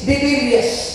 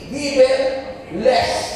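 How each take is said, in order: First: The name ends with a short 'lis' sound. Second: The name ends with the word 'less'. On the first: The name means riding with the devil. The speaker calls it wrong. "ang pronunciation ay Divilis" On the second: The name means free of the devil. The speaker calls it right. "Ang tumpak na pronunciation ng Divilis ay Devil less"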